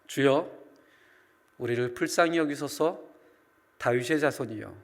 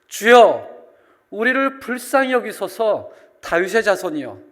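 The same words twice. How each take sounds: First: It is said quietly and calmly. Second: It is said as a desperate, pleading cry.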